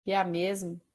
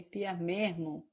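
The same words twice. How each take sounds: First: Said in the usual way. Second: Slow "mesmo" with an R-like breath for the S; hesitant "mesmo" said as "mehmo"; attempted R in mesmo. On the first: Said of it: "olha como muda". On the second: Shown as a demonstration. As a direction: try "mesmo" as "mermo". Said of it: "não sei falar o R".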